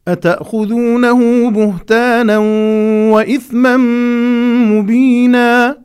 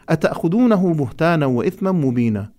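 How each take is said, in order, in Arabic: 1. تُقال بلحن استفهامي. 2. تُقال بلحن مستوٍ خبري. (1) "هكذا اللحن البياني يدل على الاستفهام" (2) "لا نقول ... أنا أصبح هذا الاستفهام إخبار وهذا خطأ"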